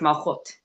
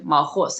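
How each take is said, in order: First: The word ends with a t sound. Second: The word ends with an s sound. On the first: "if you pronounce it according to um, the Sephard" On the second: "that's the Hebrew pronunciation"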